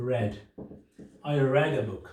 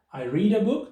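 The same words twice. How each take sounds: First: "read" said as red, rhyming with bed; past tense red. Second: "read" said as reed, long ee, higher and louder; present tense reed. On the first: Teacher showing past tense, "read" pronounced red. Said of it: "उसको क्या बोलेंगे". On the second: Teacher contrasting present tense, "read" said as reed. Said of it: "मैं किताब पढ़ता हूँ". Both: Shown as a demonstration.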